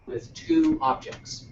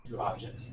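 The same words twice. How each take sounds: First: "two objects" slow and much higher; emphatic explanation. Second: Said in the usual way. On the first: Shown as a demonstration. Teacher stresses the key phrase so the student gets it. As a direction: stretch out "two" in "with two objects" to drive it home. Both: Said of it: "It appears".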